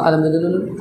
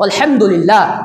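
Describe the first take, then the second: First: It is said fast and rushed. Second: It is said slowly and carefully.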